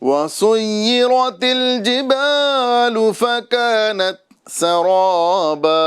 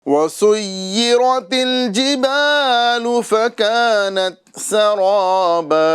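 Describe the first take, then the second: No difference in how they are said.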